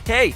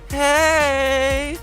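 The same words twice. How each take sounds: First: The word is said short and clipped. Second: The word is drawn out and lengthened. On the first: The speaker should be taken seriously. "you're more likely to take me seriously" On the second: The speaker may be a little drunk. "elongation of the second one"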